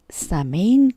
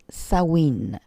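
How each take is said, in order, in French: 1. Il se prononce avec des sons français, comme il s'écrit. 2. Il se prononce avec des sons anglais, comme 'sow-in'. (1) "je l'ai prononcé Samhain, comme ça s'écrit" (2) "nos sorcières anglo-saxonnes le prononcent Samhain"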